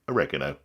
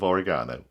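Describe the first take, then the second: First: It is said in an American accent. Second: It is said in a British accent.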